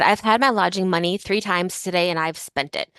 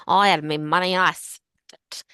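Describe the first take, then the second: First: Said in the usual way. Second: Put-on slurred, tipsy drunk voice. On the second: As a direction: slur it like a drunk woman. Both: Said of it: "which you can imagine that in a drunk voice".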